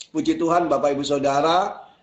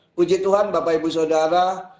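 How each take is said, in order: No difference in how they are said.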